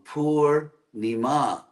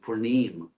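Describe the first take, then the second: First: The vowels are long, short, long, ending in -a. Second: The vowels are shortened and the final vowel dropped. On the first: The speaker calls it right. "It's actually long, short, long" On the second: The speaker calls it wrong. "which devotees translate into Purnim, as if it were a tree"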